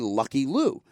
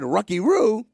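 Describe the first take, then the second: First: Both words begin with a clear L sound. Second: Both words begin with an R-like sound instead. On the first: This is the password as intended. The speaker calls it right. "They'd say Lucky Lou" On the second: The speaker cannot produce the L sound. The speaker calls it wrong. "couldn't pronounce the the the uh, the L's"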